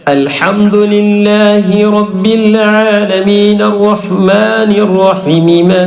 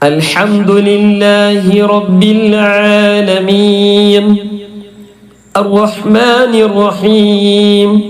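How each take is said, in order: First: The words run on without a stop. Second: There is a stop after 'alamin'. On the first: The verses are joined together. "ഇനി ഒരാൾ നിർത്തിയില്ല" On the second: Each verse ends with a stop. "ഓരോ ആയത്തിന്റെ അവസാനത്തിൽ നിർത്തുക"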